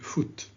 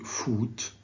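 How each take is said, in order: First: The vowel is a short back vowel. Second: The vowel is a long back vowel. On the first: The speaker calls it right. "Please say foot" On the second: The speaker calls it wrong. "don't say foot"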